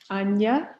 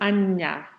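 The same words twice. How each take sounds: First: The ny nasal sound is short and single. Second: The ny nasal sound is long and doubled. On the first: "let me do what I think would be N Y" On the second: "then I'll do what I think would be like double N with tildes"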